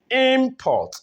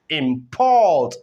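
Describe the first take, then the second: First: The stress is on the first syllable. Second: The stress is on the second syllable. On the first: It is used as a noun. "we have it as a noun here because the stress is on the first syllable" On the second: It is used as a verb. "the stress goes to the second syllable"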